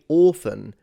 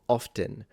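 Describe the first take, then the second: First: Rounded 'or' vowel with no T sound. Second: Short plain 'o' vowel, everyday pronunciation. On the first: "So the T is completely gone, but the O is very, very different" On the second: "how you would say, like I would say the rest of the population would say it"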